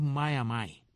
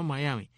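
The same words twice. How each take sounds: First: "Miami" as mah-yah-MY, ending like "my"; local pronunciation. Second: "Miami" as mah-YAH-mee, ending in "mee"; rejected pronunciation. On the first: Host reveals the local name, "Miami" as mah-yah-MY. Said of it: "la M I final la pronuncian como Mai". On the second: Locals reject the visitor's word, "Miami" as mah-YAH-mee. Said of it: "y es que es Miami". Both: Shown as a demonstration.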